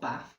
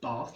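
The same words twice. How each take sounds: First: The vowel does not follow the southern split. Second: The vowel follows the southern English bath-trap split. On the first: "not Bath" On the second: "it has the Bath trap split, so Bath"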